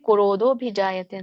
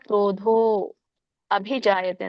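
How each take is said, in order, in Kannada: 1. ಈ ಎರಡು ಪದಗಳನ್ನು ಜೋಡಿಸಿ ಒಂದಾಗಿ ಹೇಳುತ್ತಾರೆ. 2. ಈ ಎರಡು ಪದಗಳನ್ನು ಬೇರೆ ಬೇರೆಯಾಗಿ ಹೇಳುತ್ತಾರೆ. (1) "ಇಲ್ಲಿ ಕೂಡಿ ಕ್ರೋಧೋಭಿಜಾಯತೆ ಅಂತ ಹೇಳ್ಬೋದು" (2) "ಕ್ರೋಧೋ ಅಭಿಜಾಯತೆ ಅಂತ ಹೇಳ್ಬೋದು"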